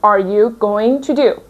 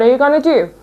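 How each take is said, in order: First: Each word is said fully and separately. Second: The words run together, with 'going to' as 'gonna'. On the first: The speaker wants to put emphasis on it. The speaker calls it wrong. "a native speaker doesn't pronounce it like this" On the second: It is ordinary everyday conversation. The speaker calls it right. "Going to changes to gonna"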